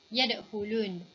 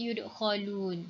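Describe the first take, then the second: First: The first vowel is a, the second u. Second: The first vowel is u, the second a. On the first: "fathah ya dan dhammah kha" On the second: "dhammah ya dan fathah kha"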